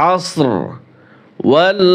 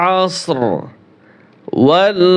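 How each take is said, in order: Both takes have the same delivery.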